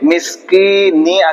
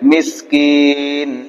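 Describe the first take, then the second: First: The word ends with a short final vowel. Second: The word ends on the consonant n. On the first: "মিসকিনি আছে" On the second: "সাকিন করে দেব"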